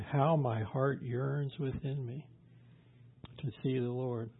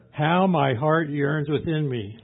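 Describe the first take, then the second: First: Slow, soft scripture reading; quiet and drawn out; hushed longing. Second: Loud, slow, impassioned reading; fervent longing. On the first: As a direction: let it sink softly, with yearning. Job's longing, first reading. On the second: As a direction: cry out the yearning, drawn out. Same verse repeated with fervour. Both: Retold or imitated.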